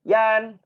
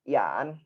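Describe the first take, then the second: First: The syllable has a high level tone. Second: The syllable has a rising tone. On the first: "ini nada satu" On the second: "dan nada dua"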